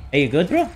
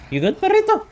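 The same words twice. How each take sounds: First: Said in the usual way. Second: High cooing talk to a puppy; high pet voice. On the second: Pretend. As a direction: coo it like to a little dog. Cooing at companion.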